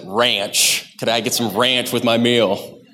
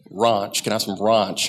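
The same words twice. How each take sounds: First: "Ranch" said with the flat American a, leaning on the word. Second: "Ranch" said with a broad ah, like rahnch; "ranch" mimicking the English co-worker's open ah vowel. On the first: Retold or imitated. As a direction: hit "ranch" with a flat, emphasized a. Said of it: "You had to emphasize that". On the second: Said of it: "he asked for ranch".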